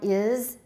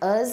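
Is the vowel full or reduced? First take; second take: full; reduced. First: The word has a full, clear vowel. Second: The word has a reduced, weak vowel. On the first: "strong form is" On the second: "weak form us or z"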